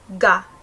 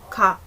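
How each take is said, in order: First: The first consonant is a plain voiced G. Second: The first consonant falls between G and K. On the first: The speaker calls it wrong. "hindi siya ga" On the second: The speaker calls it right. "somewhere between G and K"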